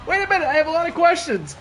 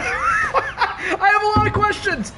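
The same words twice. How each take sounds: First: Said in the usual way. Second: Laughing through the words, high and slow. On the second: Real, not acted. Streamer baffled by the ring, laughing hard. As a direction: stretch it out while cracking up.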